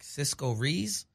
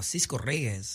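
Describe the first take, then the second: First: The surname is anglicized into one syllable, 'Rees'. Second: The surname has a Spanish r and two syllables. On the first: The speaker calls it wrong. "if it's just you know a regular person, they're like Cisco Rees" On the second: The speaker calls it right.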